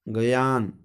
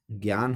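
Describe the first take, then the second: First: ज्ञान broken into "ga-yaan"; split first cluster. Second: Said in the usual way. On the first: Shown as a demonstration. Teacher showing the wrong form, ज्ञान said as "gayaan". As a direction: add a vowel inside ज्ञान: ga-yaan. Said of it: "गलत है". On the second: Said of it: "ज्ञान होता है".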